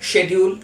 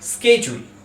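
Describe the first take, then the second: First: It is said in a British English accent. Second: It is said in an American English accent. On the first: "British ইংলিশে শেডিউল" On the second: "American ইংলিশে এর উচ্চারণ হয়, ঠিক উচ্চারণ হয় স্কেজুল"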